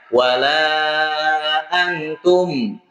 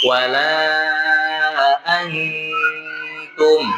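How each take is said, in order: First: The nasal sound is rushed and cut short. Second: The nasal sound is held before moving on. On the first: The speaker calls it wrong. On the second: The speaker calls it right. "ditahan terlebih dahulu"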